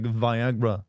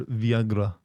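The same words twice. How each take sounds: First: "Viagra" said slowly as vy-AG-ra; standard pronunciation. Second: "Viagra" said vee-AH-gra, falling; alternative pronunciation. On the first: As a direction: demonstrate "Viagra" slowly with long i. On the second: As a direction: demonstrate "Viagra" starting with vee. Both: Shown as a demonstration. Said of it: "it starts with a V".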